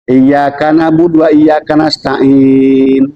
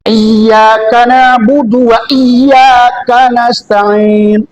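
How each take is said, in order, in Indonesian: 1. Bunyi 'y'-nya pendek dan tunggal. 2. Bunyi 'y'-nya ditahan panjang dan ganda. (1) "sadahnya enggak aja" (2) "Huruf double"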